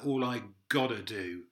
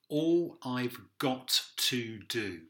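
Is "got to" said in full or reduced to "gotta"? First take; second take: reduced; full. First: "Got to" is run together as "gotta". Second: Each word is said fully and formally. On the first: It sounds casual, as actually sung. "a lot of wanna's and gotta's in there" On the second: It sounds formal and proper. "Nice and formal, straightforward"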